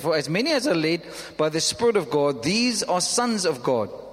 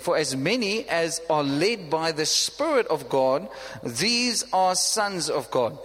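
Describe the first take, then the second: First: It is read at a normal pace. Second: It is read very slowly.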